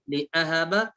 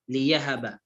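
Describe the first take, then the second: First: لأهب with a glottal stop; hamza sounded in لأهب. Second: ليهب with a y glide; hamza turned to ya in ليهب. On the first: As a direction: keep the hamza clear in لأهب. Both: Shown as a demonstration. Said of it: "أبدل الهمزة بالياء".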